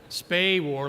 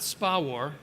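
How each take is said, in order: First: The first syllable sounds like "space". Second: The first syllable sounds like "spa". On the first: The speaker calls it right. "SPAWAR like in space" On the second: The speaker calls it wrong. "not SPA war"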